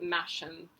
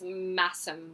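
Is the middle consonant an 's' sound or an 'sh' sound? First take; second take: sh; s. First: The middle consonant is an sh sound. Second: The middle consonant is a plain s sound. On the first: The speaker calls it wrong. "not Masham, but I just, you know, habitually pronounce it as Masham" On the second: The speaker calls it right. "I know it's Massam"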